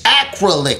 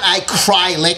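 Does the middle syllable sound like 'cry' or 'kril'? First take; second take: kril; cry. First: The middle syllable sounds like 'kril'. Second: The middle syllable sounds like 'cry'. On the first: The speaker calls it right. "It's acrylic" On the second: The speaker calls it wrong. "not acrylic, like I cry like a big fat baby"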